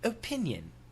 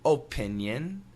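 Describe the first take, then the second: First: Imitated British accent. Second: Careful, fully articulated American accent. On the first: "we'll guess at the British pronunciation" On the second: "perfect American pronunciation"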